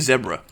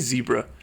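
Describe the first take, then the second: First: It is said the British way. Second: It is said the American way. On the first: The speaker calls it right. "I say zebra" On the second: The speaker calls it wrong. "Americans say zebra"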